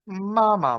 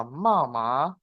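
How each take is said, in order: First: Mama with the first ma high, then a falling ma; mama as Mandarin tones: high, then falling; tone contrast mama. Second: Mama with a low dip then a rising tone; mama in a rising Mandarin tone. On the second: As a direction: let mama climb at the end. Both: Shown as a demonstration. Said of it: "Jadi kalau digabung".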